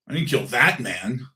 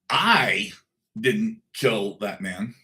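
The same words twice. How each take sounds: First: The word "that" is stressed. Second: The word "I" is stressed. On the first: The speaker killed someone else, not this man. "I might have killed somebody, but not that one" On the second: Someone else did it, and the speaker may know who. "I didn't, but I might know who did"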